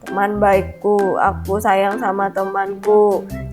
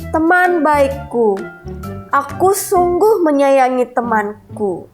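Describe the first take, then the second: First: It is read flat, quiet and unclear. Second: It is read loud, clear and expressive.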